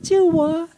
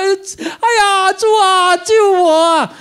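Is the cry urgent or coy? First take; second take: coy; urgent. First: It is said softly in a flirty way. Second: It is shouted loudly and urgently.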